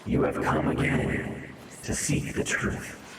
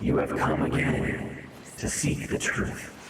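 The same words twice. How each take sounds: First: It is read in a spooky ghost voice. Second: The same.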